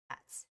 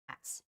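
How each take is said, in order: Both takes have the same delivery.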